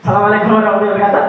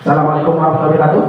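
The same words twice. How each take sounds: First: Smiling greeting, lifted from a low register; dengan senyum. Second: Unsmiling, low-pitched quick greeting; tanpa senyum. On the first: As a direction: let a smile into the quick greeting. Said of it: "kalau senyum, suara yang dikeluarin itu beda". (salam cepat sambil tersenyum) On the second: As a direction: greet them fast and low, without a smile. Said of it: "Sama teman-teman nggak senyum". (tanpa senyum, nada rendah dan cepat) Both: Shown as a demonstration.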